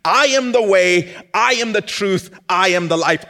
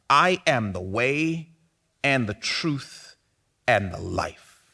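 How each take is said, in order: First: I am the way, I am the truth, I am the life, each I punched loud and high; loud proclamation. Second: Slow, measured reading of I am the way, and the truth, and the life; slow reflective reading. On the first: Acted. Pastor proclaiming Jesus's words to the congregation, loud and fervent. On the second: Shown as a demonstration. Pastor lingering over Jesus's words, slow and reflective. Pastor rereads the verse slowly.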